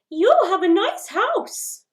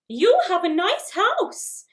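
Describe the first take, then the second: First: It is said at a high pitch. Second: The same.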